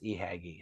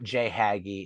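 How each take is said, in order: First: The name begins with an E sound. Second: The name begins with a J sound. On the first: The speaker calls it right. "It's it truly is eHaggy" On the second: The speaker calls it wrong. "it's not JHaggy"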